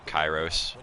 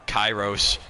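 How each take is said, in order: First: Said in the usual way. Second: Louder urgent call of the name. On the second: Real, not acted. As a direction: call his name out sharply. Calling friend's name, louder.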